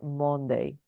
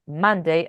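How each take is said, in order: First: The first vowel is a rounded 'o' sound. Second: The first vowel is an open 'uh' sound. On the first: The speaker calls it wrong. "and not Monday" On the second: The speaker calls it right. "That it's Monday"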